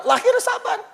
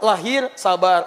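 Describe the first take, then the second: First: High. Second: Slow. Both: Shown as a demonstration.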